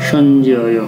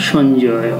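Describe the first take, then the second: No difference in how they are said.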